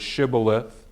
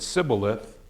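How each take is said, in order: First: The word begins with a 'sh' sound. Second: The word begins with an 's' sound. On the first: The speaker belongs to the group that can say it. The speaker calls it right. "their ability to either pronounce the word shibboleth" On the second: The speaker belongs to the other group. The speaker calls it wrong. "if they couldn't and they said sibboleth"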